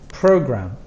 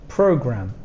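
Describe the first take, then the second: Both takes have the same delivery.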